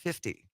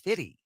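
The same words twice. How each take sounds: First: The word is said with a clear f sound. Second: The word is said without the f sound. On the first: "I pronounced it fifty" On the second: "my then co-host corrected me and said, "No, it's fifty.""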